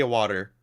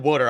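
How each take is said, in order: First: Said in the usual way. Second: WATER said the Philly way, like "wooder"; Philly-accent water. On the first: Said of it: "I don't do that". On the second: Retold or imitated. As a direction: imitate a Philadelphian saying water as "wooder". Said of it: "only weird thing was they said water".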